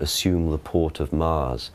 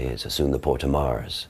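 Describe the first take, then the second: First: Modern English accent, said slowly and reverentially. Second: Original pronunciation accent, said faster and earthier.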